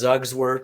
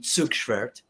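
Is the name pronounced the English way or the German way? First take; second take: English; German. First: The name is said with an English pronunciation. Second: The name is said with a German pronunciation. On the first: "Pronounced Zugsworth" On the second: "if you're saying it in German"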